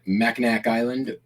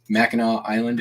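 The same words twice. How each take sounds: First: The name is said the non-Michigan way. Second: The name is said the Michigan way.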